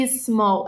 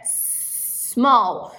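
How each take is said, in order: First: SMALL said as "ee-small"; Brazilian-style "ismall"; wrong added I. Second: SMALL opened on a long S; "sssmall" with no vowel first; no added I. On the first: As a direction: stick an "ee" in front of "small". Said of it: "não é small". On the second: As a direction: hiss straight into "small". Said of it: "Você não fala o I". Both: Shown as a demonstration.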